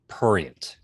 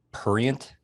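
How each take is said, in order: First: "prurient" with an R right after the P; correct pronunciation. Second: "prurient" with the first R dropped; mispronounced word. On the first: Producer correcting the hosts, "prurient" with its first R sounded. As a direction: say "prurient" as "PROOR-ee-ent", both Rs sounded. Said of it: "There's an R in there". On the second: Producer quoting the hosts' mistake, "prurient" said without its first R. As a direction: say "prurient" as "purient". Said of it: "You guys kept saying the word". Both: Shown as a demonstration.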